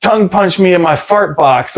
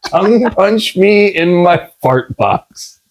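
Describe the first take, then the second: First: Said in the usual way. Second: Slow, word-by-word comic repeat; deliberate slow-motion mock delivery; drawn-out quote. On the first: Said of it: "and she was like". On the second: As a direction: savour each word of the absurd line. Repeats quoted line for laughs.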